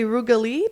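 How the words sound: The name is said with an American accent.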